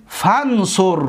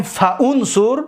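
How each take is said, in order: First: «فانصر» run together as fansur, alif dropped; slow «فانصر», fan-sur, with the hamza silent; joined fansur. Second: «فانصر» read as fa-unsur, hamza sounded; unjoined fa-unsur. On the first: Teacher shows students the correct reading, «فانصر» joined as fansur. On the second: Teacher asks students whether it reads this way, «فانصر» as fa-unsur. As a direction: say «فانصر» in two parts, fa then unsur. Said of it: "نه". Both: Shown as a demonstration.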